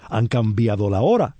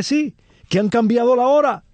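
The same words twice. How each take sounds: First: Said in the usual way. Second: High, animated retelling of a relative's quip; amused exclamation. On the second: Retold or imitated. Lecturer retelling a relative's joke to the audience, amused exclamation. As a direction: pitch up high as for a punchline.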